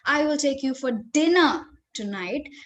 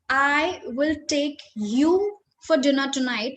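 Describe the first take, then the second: First: The stress falls on the word dinner. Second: The stress falls on the word you. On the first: The meal is dinner, not lunch or breakfast. "if I'm emphasizing on" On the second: This person and nobody else is invited. "that means I'm going to take you and nobody else"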